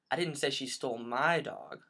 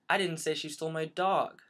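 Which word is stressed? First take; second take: my; dog. First: The stress falls on the word my. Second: The stress falls on the word dog.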